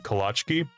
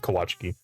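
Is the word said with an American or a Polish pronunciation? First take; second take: American; Polish. First: It is said with an American-style L sound. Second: It is said with a Polish-style W sound. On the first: The speaker calls it wrong. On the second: The speaker calls it right.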